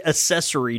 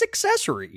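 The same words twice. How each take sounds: First: Accessory said "uh-SESS-uh-ree", no K sound; mimicked mispronunciation. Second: Accessory said "ek-SESS-uh-ree", with the K; high-pitched correction, accessory with a clear "ek" start; corrected pronunciation. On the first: Teasing co-host over his pronunciation, accessory mimicked as "uh-SESS-uh-ree". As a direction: say accessory without the K, as "a-sessory". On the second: Shown as a demonstration. Correcting co-host's pronunciation, accessory said "ek-SESS-uh-ree". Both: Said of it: "the way you say accessory drives me crazy".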